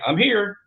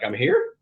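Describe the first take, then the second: First: The voice falls at the end, a plain statement. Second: The voice rises at the end, like a question.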